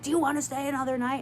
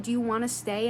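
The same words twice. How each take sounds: First: Fast retold yell, barely raised; mild mock yell. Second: Said in the usual way. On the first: Asking a guest about staying another night, in a quick mock yell. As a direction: imitate her yelling in a quick, pushy burst. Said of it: "like, yelling, she's like". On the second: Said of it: "when she said".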